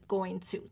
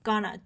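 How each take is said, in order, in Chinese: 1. 这个短语每个词都完整说出。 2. 这个短语简化成两个短音节。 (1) "其实它就是going to" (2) "gonna 其实是口语化的说法"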